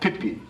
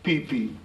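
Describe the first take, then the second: First: The vowels are clipped short. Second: The vowels are drawn out long. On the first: There are shellfish there. The speaker calls it wrong. "as opposed to the short Pipi" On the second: The water seeps up from underneath the ground. The speaker calls it right. "the proper pronunciation is Pipi"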